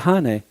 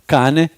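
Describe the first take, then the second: First: The word starts with a breathy H sound. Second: The word starts with a hard K sound.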